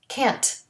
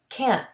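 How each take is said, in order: First: The final T is released with a puff of air. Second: The final T is stopped without a puff. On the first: "A regular T has a puff of air" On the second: "The stopped T doesn't have the puff of air"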